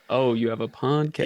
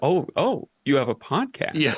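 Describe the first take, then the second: First: It sounds flat and unimpressed. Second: It sounds curious and interested.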